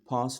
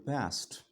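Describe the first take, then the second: First: It is said with a non-American accent. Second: It is said with an American accent.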